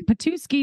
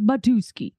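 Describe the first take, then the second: First: The name starts with a P sound. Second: The name starts with a B sound. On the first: The speaker calls it wrong. "Not Patuski" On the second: The speaker calls it right. "it's Batuski"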